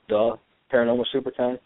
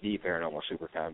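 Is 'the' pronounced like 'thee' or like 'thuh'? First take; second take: thuh; thee. First: The first word is said with a short 'thuh' sound. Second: The first word is said with a long 'thee' sound. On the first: The speaker calls it wrong. "people have been mispronouncing it" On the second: The speaker calls it right. "It's actually the Paranormal Supercon"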